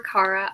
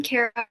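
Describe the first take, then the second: First: "Kara" with first vowel as in "car"; alternative pronunciation. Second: "Kara" with first vowel as in "care"; first pronunciation. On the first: Author offering her other name, "Kara" pronounced CAR-uh. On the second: Author introducing herself by name, "Kara" pronounced CARE-uh. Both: Shown as a demonstration. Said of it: "don't mind how people pronounce it".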